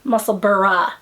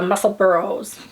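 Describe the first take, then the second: First: "burra" ending in an open UH; careful "Muscle burra"; corrected pronunciation. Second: "burrows" ending in a long OH-z; American-style "muscle burrows"; mispronounced place name. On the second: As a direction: say "burrows" like rabbit burrows. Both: Shown as a demonstration. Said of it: "Gotta say it right".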